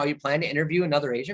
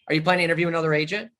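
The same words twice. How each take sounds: First: It sounds soft and friendly. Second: It sounds harsh and interrogating. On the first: The customer feels comfortable answering. The speaker calls it right. "if I change the tonality of" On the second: The customer feels questioned and pressured. The speaker calls it wrong. "That's interrogative"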